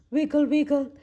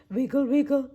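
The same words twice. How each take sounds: The two takes are said the same way.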